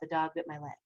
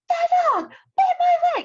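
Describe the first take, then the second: First: It is said flatly, without excitement. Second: It is said excitedly, almost screamed.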